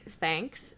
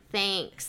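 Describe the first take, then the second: First: It is said with a standard vowel. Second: It is said with a Wisconsin vowel.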